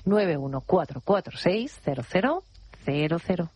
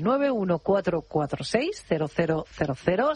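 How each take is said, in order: First: The number is said more slowly. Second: The number is said at normal speed.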